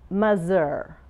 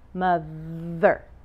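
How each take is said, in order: First: The middle consonant is a 'z' sound. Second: The middle consonant is a voiced 'th' sound. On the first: The speaker calls it wrong. "her TH becomes a Z" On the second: The speaker calls it right. "Sometimes the TH has a vibration"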